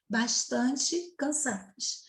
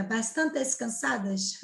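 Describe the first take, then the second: First: "Bastante cansadas" slow and softer after a laugh; chuckle, then give the right "Bastante" gently; relieved correct take with a laugh; laughing correct form. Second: "Bastantes cansadas" asked slowly, as if it sounds odd; questioning the wrong "bastantes"; doubtful wrong form. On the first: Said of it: "Aqui é invariável". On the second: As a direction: test how strange "Bastantes" sounds. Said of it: "Fica até estranho, né?". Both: Shown as a demonstration.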